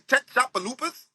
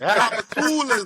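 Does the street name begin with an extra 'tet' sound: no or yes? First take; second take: yes; no. First: The name starts with an extra 'tet' syllable. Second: The name starts directly with 'chop'. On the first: A navigation voice reads the name literally. The speaker calls it wrong. "You ever use the G P S in New Orleans? That bitch be saying" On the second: Locals say the name this way. The speaker calls it right. "Like Chopatulas"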